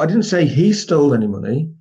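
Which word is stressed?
he. The stress is on the word he.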